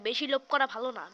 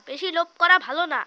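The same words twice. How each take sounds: First: Said in the usual way. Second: Said again louder, as a saying; louder repeat. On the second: Shown as a demonstration. Repeating the proverb to viewers, louder. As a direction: drive the proverb home, louder. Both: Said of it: "এই জন্য ভাই বলে".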